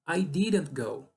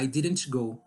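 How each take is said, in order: First: The T in didn't is dropped entirely. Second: The T in didn't is pronounced with a jolt. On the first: The speaker calls it right. "tire esse T daí" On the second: The speaker calls it wrong. "Senão fica dando soquinho"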